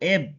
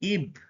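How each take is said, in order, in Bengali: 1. দলটি 'eh' স্বরধ্বনি দিয়ে শুরু হয়। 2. দলটি 'ee' স্বরধ্বনি দিয়ে শুরু হয়। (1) "ই এর এ উচ্চারণ ধরি তাহলে বি এর ব উচ্চারণের জন্য এব" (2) "ই উচ্চারণ ধরলে ই বি ইব"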